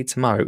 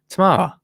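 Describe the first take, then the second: First: Said in the usual way. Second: "Tomorrow" in his own accent, higher and punched; own regional pronunciation. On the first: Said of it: "The way you say tomorrow". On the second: Shown as a demonstration. Host testing the "Tomorrow" a viewer mocked, regional pronunciation. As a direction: say "Tomorrow" pointedly, your local way. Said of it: "The way you say tomorrow is insane".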